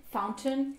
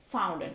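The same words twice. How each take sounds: First: 'fountain' with a clear T, raised pitch; British "fountain", rising end; T sounded. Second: American 'fountain' without T, falling end; T dropped. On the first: Teacher translates fontaine, fountain with its T. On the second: Teacher contrasts for learners, fountain without T. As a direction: soften "fountain" to 'foun-en'. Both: Shown as a demonstration. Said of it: "retrouver cette règle de prononciation".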